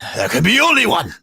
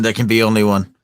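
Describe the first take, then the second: First: It imitates the Icelandic barbarian's voice. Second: It is said in his normal voice.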